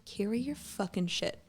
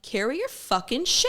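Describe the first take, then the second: First: Slow, softer, deadpan put-down; flat dismissive retort. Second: Higher and louder, biting retort; retold snap. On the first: Retold or imitated. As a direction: say it slow and unimpressed. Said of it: "I'm like". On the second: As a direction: bark it back at her. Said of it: "And I'm like".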